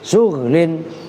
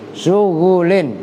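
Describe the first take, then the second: First: No vowel comes between the gh and l. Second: A short u vowel comes between gh and l. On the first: "dengan dibaca sukun ghainnya" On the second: "dengan membaca dhammah ghain"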